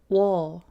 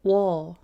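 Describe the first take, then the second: First: The vowels blend into one gliding sound. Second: The same.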